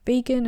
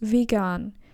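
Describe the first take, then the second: First: The word has the English pronunciation. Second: The word has the German pronunciation.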